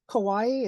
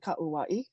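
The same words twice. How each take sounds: First: The vowels are run together, as English spelling suggests. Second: Every vowel is sounded as its own separate syllable. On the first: The speaker calls it wrong. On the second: The speaker calls it right.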